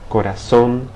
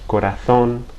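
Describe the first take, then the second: First: The z sounds like an s. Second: The z sounds like th. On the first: This is how it is said in Latin America. "it always represents the S sound in Latin American dialects" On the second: This is how it is said in Spain. "as if I were in Spain"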